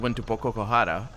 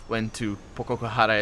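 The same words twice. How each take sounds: First: There is no pause before the last word. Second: There is a pause before the last word. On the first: "you normally would say" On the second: "as he prepared to pronounce the word"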